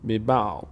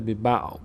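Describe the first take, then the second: First: The word ends on a bare consonant. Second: The word ends on a bare consonant.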